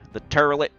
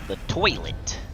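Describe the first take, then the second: First: The first syllable has an 'ur' sound. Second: The first syllable has an 'oy' sound.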